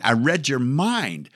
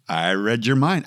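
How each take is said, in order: First: I read your MIND, slower and higher; mock mystic drawl. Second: Said in the usual way. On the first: Shown as a demonstration. Host joking he read listeners' minds, slow mock mystic. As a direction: draw it out like a stage mind reader.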